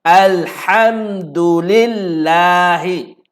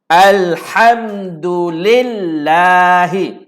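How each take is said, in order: No difference in how they are said.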